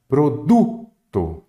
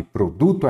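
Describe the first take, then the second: First: PRODUTO slow, with DU drawn out and punched; stress on DU. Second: Said in the usual way. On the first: Shown as a demonstration. Teacher marking tonic syllables, PRODUTO slowly with stress on DU. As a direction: hit the DU in "Produto", then let TO drop. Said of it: "a sílaba que você fala mais forte". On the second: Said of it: "produto é a sílaba".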